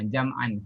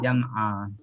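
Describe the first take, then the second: First: The word ends with an n sound. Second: The word ends with a vowel held two beats. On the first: The reading continues without stopping. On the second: The reader stops on this word.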